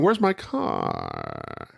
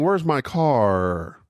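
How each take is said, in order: First: The voice is creaky with a breaking vocal fry. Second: The voice is smooth without creaky breaks. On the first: "fry is the breaking of the voice. ... I'm going" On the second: "I'm not saying"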